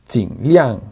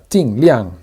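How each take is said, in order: First: The first syllable has a low dipping tone. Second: The first syllable has a sharp falling tone. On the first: This is the official form. "técnicamente se debe pronunciar con el tercer tono" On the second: This is the usual form in practice. "se suelen pronunciar más con el cuarto tono"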